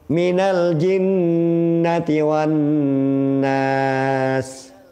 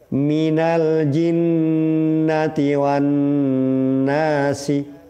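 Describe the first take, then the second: First: The last word ends on a consonant. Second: The last word ends with a spoken vowel.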